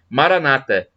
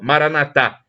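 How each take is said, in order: First: The stress is on the second-to-last syllable. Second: The stress is on the last syllable. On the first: This is the Protestant way of saying it. "os protestantes colocam a tônica na penúltima sílaba" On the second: "os católicos colocam a tônica na última sílaba"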